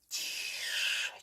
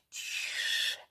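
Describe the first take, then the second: The two takes are said the same way.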